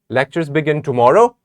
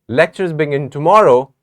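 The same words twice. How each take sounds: First: It is said as a question. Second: It sounds unfinished, as if more follows. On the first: It asks whether this is so. "This sounds like a question" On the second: More will be said after this. "when we have more to say"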